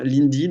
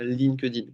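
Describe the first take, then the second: First: The k sound in the middle is dropped. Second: The k sound in the middle is heard. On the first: The speaker calls it right. "on enlève le cas" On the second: The speaker calls it wrong. "et pas d'un LinkedIn qu'on entend tout le temps"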